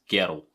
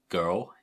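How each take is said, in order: First: It is said in a Scottish Glaswegian accent. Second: It is said in a plain non-Scottish accent.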